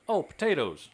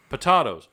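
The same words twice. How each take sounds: First: "potatoes" said the usual American way, pa-TAY-toes; realising the word, "potatoes" with an ay vowel; standard potatoes. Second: "Potatoes" said louder with the ah vowel, pa-TAH-toes. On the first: Friend finally understands, says "potatoes" with an ay vowel. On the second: Repeating the word for a confused friend, louder, with an ah vowel. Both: Shown as a demonstration.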